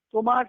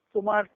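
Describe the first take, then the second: No difference in how they are said.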